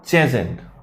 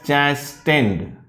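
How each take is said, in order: First: The T sound is silent in the word. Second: The T sound is pronounced in the word. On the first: The speaker calls it right. "Here T is silent" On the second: The speaker calls it wrong. "some people are going to read it as chastened"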